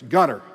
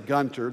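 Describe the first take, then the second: First: No t sound is pronounced in the middle. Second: A t sound is pronounced in the middle. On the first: The speaker calls it right. "It's Gunner" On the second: The speaker calls it wrong. "you don't say Gunter"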